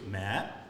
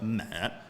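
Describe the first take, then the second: First: The pitch rises upward. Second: The pitch falls downward. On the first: "I think two is mat" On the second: "three is uh, mat"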